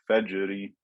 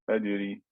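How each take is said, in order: First: The J sound is abrupt and forceful. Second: The J sound is weak and soft. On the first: The speaker calls it right. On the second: The speaker calls it wrong.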